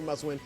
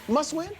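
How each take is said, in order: First: It is said flat, without marked inflection. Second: It is said with strong, marked inflection.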